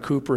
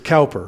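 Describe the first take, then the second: First: The first vowel sounds like 'coo'. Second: The first vowel sounds like 'cow'. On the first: The speaker calls it right. "the way that they would pronounce it is Cooper" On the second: The speaker calls it wrong. "it's Cowper, C-O-W-P-E-R"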